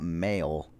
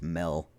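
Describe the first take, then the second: First: It is said with a standard vowel. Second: It is said with a Utah vowel. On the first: "it's not"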